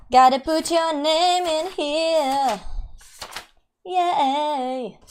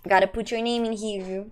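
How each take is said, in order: First: "Gotta put your name in here" slow and higher, sung out; sing-song. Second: Said in the usual way. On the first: Shown as a demonstration. Streamer entering a giveaway name in a slow sing-song. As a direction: stretch "name" playfully, up high.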